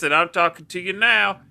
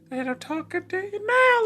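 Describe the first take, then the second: First: It is said in his normal voice. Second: It is said in a put-on, Mabel-like voice.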